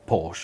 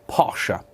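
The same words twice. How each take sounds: First: It is pronounced the common British way. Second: It is pronounced unlike the common British way.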